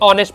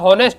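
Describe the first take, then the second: First: The word begins with a vowel sound. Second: The word begins with an h sound. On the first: The speaker calls it right. "देखिए ऑनेस्ट पढ़ते से" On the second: The speaker calls it wrong. "ये पढ़ने में लगता है हॉनेस्ट"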